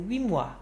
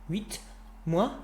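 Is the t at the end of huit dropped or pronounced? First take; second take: dropped; pronounced. First: The t of huit is dropped before mois. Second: The t of huit is pronounced before mois. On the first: The speaker calls it right. "Get rid of that T sound" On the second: The speaker calls it wrong. "There's that gap again"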